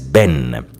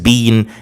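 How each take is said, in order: First: It is said in an American accent. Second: It is said in a British accent. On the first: "in American English as been" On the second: "pronounced in British English as been"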